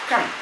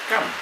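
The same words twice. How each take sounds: The two takes are said the same way.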